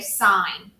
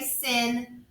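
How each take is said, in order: First: The vowel is long, like in 'line'. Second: The vowel is short, like in 'pin'. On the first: The speaker calls it right. "please say sine" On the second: The speaker calls it wrong. "Don't say sin"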